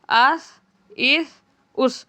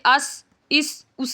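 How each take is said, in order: First: The consonant is soft with no whistling hiss. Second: The consonant has a sharp whistling hiss. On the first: The speaker calls it right. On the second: The speaker calls it wrong.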